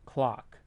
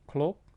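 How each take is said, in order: First: The vowel is said with an American accent. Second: The vowel is said without American accent features. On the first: "Now I'm adding the American accent feature here" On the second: "without the American accent features"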